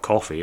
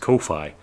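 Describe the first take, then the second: First: The first syllable does not rhyme with no. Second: The first syllable rhymes with no. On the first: The speaker calls it wrong. "it's not Ko-fi" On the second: The speaker calls it right. "it rhymes with no fee"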